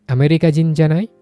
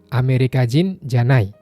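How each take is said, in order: First: The pitch rises at the end. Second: The pitch falls at the end. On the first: The person is American, isn't he? "tapi kalau intonasinya dinaikin" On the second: The person is not American. "intonasinya menurun, artinya bukan orang Amerika"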